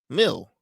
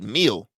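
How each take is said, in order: First: The vowel is a short 'i' sound. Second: The vowel is a long 'ee' sound. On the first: The speaker calls it wrong. "like almost like if it has an I in it" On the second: The speaker calls it right. "I'll say it's a meal"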